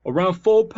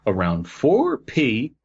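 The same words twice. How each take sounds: First: "four P" pitched way up in a silly voice; mocking repeat. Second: Said in the usual way. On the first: Joking on the misread time, "four P" high and silly. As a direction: echo "four P" as a high comic character.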